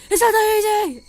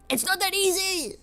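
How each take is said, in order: First: High, very loud outburst; exasperated shout. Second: High-pitched, upset retort; exasperated protest. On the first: Artist told to just redo destroyed art, shouting in frustration. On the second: Artist answering people who say remake it, exasperated. Protests at being told to redo art. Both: Retold or imitated.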